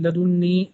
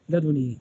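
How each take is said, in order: First: لدني with a held double n: la-dun-ni; doubled nun. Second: لدني with one short n: la-du-ni; single nun. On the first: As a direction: geminate the n in لدني. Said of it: "زدت نونا ليسلم سكون النون". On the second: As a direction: lighten the n in لدني, not doubled. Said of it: "بتخفيف النون". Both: Shown as a demonstration.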